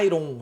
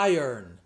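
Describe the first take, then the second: First: The word is said short and clipped. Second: The word is said long and drawn out. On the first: The speaker calls it wrong. "a gente pensa que vai falar iron, nada disso" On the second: The speaker calls it right. "É mais longo"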